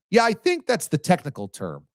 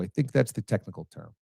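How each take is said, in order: First: Higher mock-serious take. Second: Said in the usual way. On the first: Shown as a demonstration.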